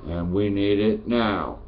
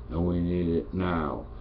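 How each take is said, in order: First: "And we need it now." slowed, every word hammered, NOW landing hard; slow emphatic repeat. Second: Said in the usual way. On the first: Real, not acted. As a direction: drag out "we need it now" and hit NOW. Repeats his call, second time slower.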